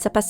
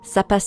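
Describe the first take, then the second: First: It is repeated very fast. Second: It is repeated at a moderate speed.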